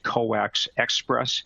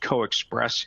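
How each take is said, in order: First: The name begins with the full word 'coax'. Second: The name begins with a short 'co' sound. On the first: The speaker calls it wrong. "Sometimes you'll hear people pronounce it as Coax Express" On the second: The speaker calls it right. "I'm pronouncing it as CoExpress"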